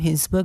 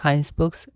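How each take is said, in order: First: The first syllable has a short 'i' vowel. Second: The first syllable has an 'ai' vowel. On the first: The speaker calls it wrong. "हिंसबर्ग नहीं" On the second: The speaker calls it right. "हाइंसबर्ग्स pronounce करेंगे"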